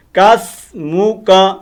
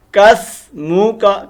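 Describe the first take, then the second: No difference in how they are said.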